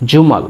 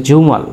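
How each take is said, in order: Both takes have the same delivery.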